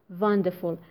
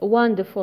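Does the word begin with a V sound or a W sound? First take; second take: V sound; W sound. First: The word begins with a buzzing V sound. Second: The word begins with a rounded W sound. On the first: The speaker calls it wrong. "not wonderful" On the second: The speaker calls it right. "It's wonderful"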